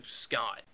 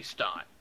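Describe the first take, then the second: First: "Scott" said with a clear sc at the start; "Scott", first guess at the name, dropping low; misread name. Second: "Stott" said with st and a t at both ends; "Stott", a low, firm correction; corrected name. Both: Real, not acted. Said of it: "No, it's Stott".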